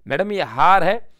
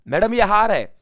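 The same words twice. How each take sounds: First: Slow drill line. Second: Emphatic drill. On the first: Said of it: "mnemonic drill, slower take". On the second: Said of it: "mnemonic drill, first take". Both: Shown as a demonstration.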